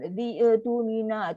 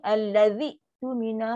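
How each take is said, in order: First: The sound before 'tumina' bounces with an echo. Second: The sound before 'tumina' is cut off sharply. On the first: The speaker calls it wrong. "Jangan jadi melantun-lantun ada macam bunyi qalqalah" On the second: The speaker calls it right. "Mesti bunyi alladzi tumina. Hamzah adalah sifat syiddah. Putus bunyi"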